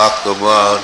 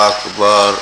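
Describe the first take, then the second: Both takes have the same delivery.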